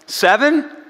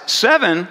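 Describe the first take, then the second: First: Hopeful, high rising question; eager guess. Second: Falling, unimpressed repeat of the number; incredulous echo. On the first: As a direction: offer the number like a keen pupil. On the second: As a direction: throw the guess back, not even close. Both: Retold or imitated. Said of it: "Jesus replies".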